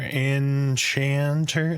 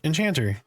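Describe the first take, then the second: First: The word is said slowly and deliberately. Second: The word is said at a normal pace.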